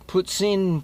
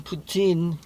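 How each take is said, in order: First: "puts in", slow and drawn out, with the stress falling on "in"; Quebec pronunciation of poutine. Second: "Putin" said like the Russian president's name, POO-tin. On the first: Showing viewers the Quebecer way to say poutine, slow Quebec pronunciation. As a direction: slowly spell out "puts in" the Quebec way. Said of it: "is the Quebecer way of saying it". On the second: Comparing the dish's name to President Putin, said like the name. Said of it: "a little bit like President Vladimir Putin". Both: Shown as a demonstration.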